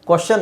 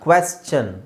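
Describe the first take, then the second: First: The first syllable is pronounced kwa. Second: The first syllable is pronounced kwe. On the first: The speaker calls it wrong. "ಕ್ವಶನ್ ಅಲ್ಲ" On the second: The speaker calls it right. "Q U ಇನ ನಾವು ಕ್ವೆ ಅಂತ ಹೇಳಬೇಕು"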